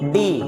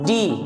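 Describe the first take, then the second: First: The D is hard, teeth held apart. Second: The D is soft, teeth held together. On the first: The speaker calls it wrong. "ना कि" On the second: The speaker calls it right. "ये आपका soft sound है, अपनी दोनों दांत को बैठाते हैं"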